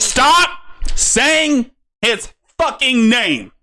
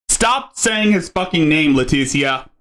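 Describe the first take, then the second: First: Slow, furious high-pitched shout; angry yell. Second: Said in the usual way. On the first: Real, not acted. Yelling at streamer over name.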